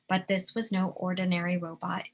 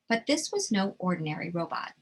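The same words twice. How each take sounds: First: It is read flatly, without expression or intonation. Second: It is read expressively, with lively varied intonation. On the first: The speaker calls it wrong. "I sound like a robot" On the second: The speaker calls it right. "pay attention to those very important as aspects of fluency"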